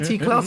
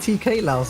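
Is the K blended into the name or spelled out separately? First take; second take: blended; separate. First: The K blends into one syllable, Klaus. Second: The K is spelled out before Laos. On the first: The speaker calls it right. "call him T Klaus" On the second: The speaker calls it wrong. "I called him T K Laos"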